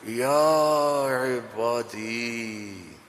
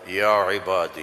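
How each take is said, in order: First: It is said in a tender, loving tone. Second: It is said in a plain, flat way.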